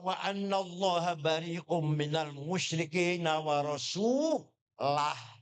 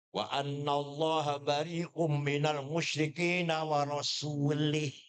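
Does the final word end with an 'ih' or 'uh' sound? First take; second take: uh; ih. First: The last word ends with an 'uh' sound. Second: The last word ends with an 'ih' sound. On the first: God and the Messenger both disown the polytheists. The speaker calls it right. "Harus bacanya" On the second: God disowns the polytheists and the Messenger too. The speaker calls it wrong.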